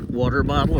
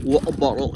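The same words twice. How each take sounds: First: It is said in an American accent. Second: It is said in a British accent.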